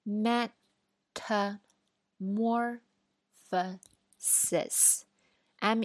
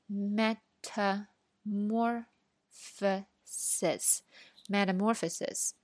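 First: Metamorphosis drawn out very slowly, syllable by syllable; slow spelling. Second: Metamorphosis said whole, very slow and clear; slow full word. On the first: Teacher starts spelling metamorphosis with the class, very slow. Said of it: "我们现在就一起来拼一下". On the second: Teacher models the whole word metamorphosis, very slow. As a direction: say metamorphosis slowly twice as a model. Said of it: "一起来拼一下". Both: Shown as a demonstration.

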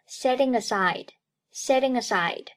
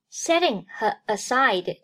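First: "setting aside" run together as one word; linked pronunciation. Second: Said in the usual way. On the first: Shown as a demonstration. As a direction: link "setting aside", ng flowing into the a. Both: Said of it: "Setting和aside连读".

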